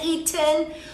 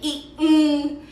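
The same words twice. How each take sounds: First: The T is said with a firm, clear release. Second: The T is replaced by a glottal stop. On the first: "con la T firme" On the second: "que es el glottal stop"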